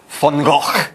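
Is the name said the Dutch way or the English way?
Dutch. It uses the original Dutch pronunciation. This is how the name was originally pronounced. The speaker calls it right. "his name wasn't pronounced Van Gogh"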